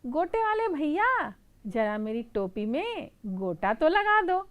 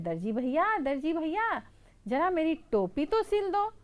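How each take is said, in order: First: High, loud sweet request; pleading mouse. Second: High, pleading little mouse voice. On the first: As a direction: call out to the lace seller. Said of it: "चूहा बोलता है". (ऊँची, मीठी चूहे की गुहार) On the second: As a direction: call out sweetly to the tailor. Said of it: "तो चूहा बोलता है". (ऊँची, मिन्नत भरी चूहे की आवाज़) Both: Acted.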